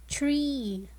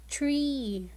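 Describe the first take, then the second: First: \"tree\" whispered with a long E; whispered model word. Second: \"Tree\" said aloud after the whisper, long E; voiced repeat of tree. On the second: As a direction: echo \"Tree\" in full voice. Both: Shown as a demonstration. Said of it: "the word tree has the long E sound".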